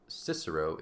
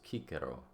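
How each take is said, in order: First: The first C sounds soft, like S. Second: The first C sounds hard, like K. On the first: The speaker calls it wrong. "so it's not Cicero" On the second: The speaker calls it right. "C is always always hard"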